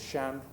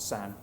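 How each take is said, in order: First: It is said in standard Mandarin, with sh. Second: It is said in a Southern accent, with s.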